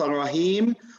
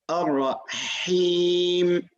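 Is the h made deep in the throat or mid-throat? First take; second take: deep; mid-throat. First: The h comes from deep in the throat. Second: The h comes from the middle of the throat. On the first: The speaker calls it wrong. "it's not a Rahim. We're not going all the way uh, to the bottom" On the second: The speaker calls it right. "we'll just go into the middle of the throat"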